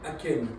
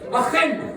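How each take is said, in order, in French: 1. Le son du milieu est un k dur. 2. Le son du milieu est un h guttural. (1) "j'espère que je le prononce bien" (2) "comme la France en espagnol. Voilà. Le, le frein en arabe"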